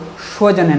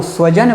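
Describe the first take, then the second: First: स्वजन said with sh at the start, "shvajan"; mistaken sh sound. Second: स्वजन with a dental s at the start; correct s sound. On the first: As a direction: swap the s of स्वजन for sh. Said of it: "उसके स्थान पर आप लोग". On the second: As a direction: begin स्वजन on a clean hissed s, as in "sun". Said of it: "स्वजन ना बोल दें". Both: Shown as a demonstration.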